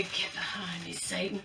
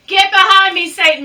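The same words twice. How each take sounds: First: Much softer, lower mutter of the rebuke; hushed low Get behind me, Satan; quiet retelling. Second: Louder, higher grandma-style scolding; loud rebuke. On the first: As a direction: murmur it to yourself like a remembered saying. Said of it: "She said it for me". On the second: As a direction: command Satan away with a mock church rebuke. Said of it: "My grandma used to say that". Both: Retold or imitated.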